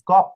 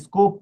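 First: The vowel after sc sounds like o. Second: The vowel after sc sounds like oo. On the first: The speaker calls it right. "উচ্চারণ অর মতো হবে" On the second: The speaker calls it wrong. "স্কুপ না"

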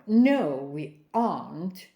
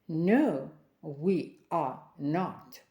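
First: The words are joined into one contraction. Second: The words are not run together. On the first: "Коротка форма" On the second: "Повна форма"

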